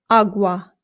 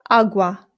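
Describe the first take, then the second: Both takes have the same delivery.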